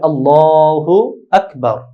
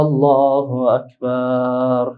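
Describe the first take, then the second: First: No vowel is drawn out; all are kept short. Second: The vowel of the last syllable is drawn out. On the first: The speaker calls it right. "বরং বলবে আল্লাহু আকবার" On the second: The speaker calls it wrong. "বার আল্লাহু আকবার এভাবে বলবে না"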